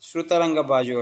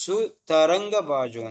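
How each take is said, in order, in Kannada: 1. ಮೊದಲ ಪದ 'shr' ಶಬ್ದದಿಂದ ಶುರುವಾಗುತ್ತೆ. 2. ಮೊದಲ ಪದ ಸಾದಾ 's' ಶಬ್ದದಿಂದ ಶುರುವಾಗುತ್ತೆ. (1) "ಶ್ರುತರಂಗ ಬಾಜು ಹೇಳ್ಬಾರ್ದು" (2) "ಸುತರಂಗ ಬಾಜು ಅಂತ ಹೇಳ್ಬೇಕು"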